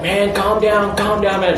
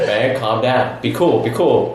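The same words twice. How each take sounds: First: High, insistent calm-down; imitated urgent calming. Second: Imitated calm reassurance. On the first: Mike trying to settle Sam outside, imitated urgent calming. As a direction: urge him down in a raised pitch. Acting out friend confronting Sam. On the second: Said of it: "Keep 'em calm".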